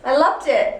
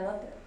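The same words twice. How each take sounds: First: It is said with lively enthusiasm. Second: It is said flatly, without much enthusiasm.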